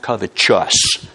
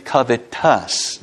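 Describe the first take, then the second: First: The ending sounds like 'chus', as in righteous. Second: The ending sounds like a plain 'tus'. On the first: The speaker calls it wrong. "that's not pronounced covetous. There's no E after the T, as in righteous" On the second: The speaker calls it right. "It's covetous"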